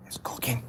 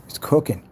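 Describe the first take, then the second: First: Soft unvoiced cooking; whispered. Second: Said in the usual way. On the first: Real, not acted. Hyping the pigeon to viewers, whispered. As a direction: hush it like a secret. Repeated, whisper then spoken.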